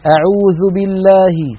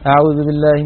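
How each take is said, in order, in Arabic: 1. يُنطق حرف الواو بضم الشفتين واستدارتهما إلى الأمام. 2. يُنطق حرف الواو دون ضم الشفتين. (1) "هاتان الشفتان لا بد من انضمامهما" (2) "نسمع بعض إخواننا حتى من حفاظ القرآن يفعلون هكذا"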